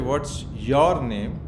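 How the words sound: The stress falls on the word your. The focus is on the other person. "you are putting a lot of emphasis on the other person"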